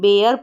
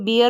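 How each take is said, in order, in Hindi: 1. स्वर 'air' में 'ai' जैसा सुनाई देता है। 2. स्वर 'beer' में 'ee' जैसा सुनाई देता है। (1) "बेयर पढ़ेंगे" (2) "अब इसको बियर नहीं"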